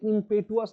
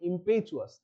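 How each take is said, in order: First: The middle consonant is a plain 't' sound. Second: The middle consonant is a 'ch' sound. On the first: The speaker calls it wrong. "এটা ইম্পেটুয়াস না" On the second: The speaker calls it right. "টিটা চয়ের মতো উচ্চারণ"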